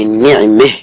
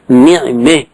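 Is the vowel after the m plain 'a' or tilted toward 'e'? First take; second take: plain a; tilted e. First: The vowel after m is a plain open a. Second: The vowel after m leans toward e.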